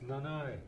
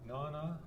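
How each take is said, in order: First: The word ends in an 'eye' vowel. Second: The word ends in an 'a' vowel. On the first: "with Skidegate, it's Nanai" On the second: "with Alaskan Ida, is Nana"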